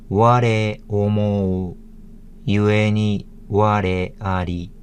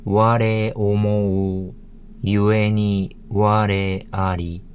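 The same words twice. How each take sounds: First: Said in the usual way. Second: Slow, measured Japanese; slow Japanese reading. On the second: Shown as a demonstration. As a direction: read each syllable slowly.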